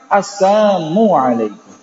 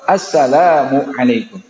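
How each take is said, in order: First: The L sound is dropped from the first word. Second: The L sound is kept in the first word. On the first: Death be upon you. The speaker calls it wrong. "Dihilangkan lamnya" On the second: Peace be upon you. The speaker calls it right. "Harusnya apa?"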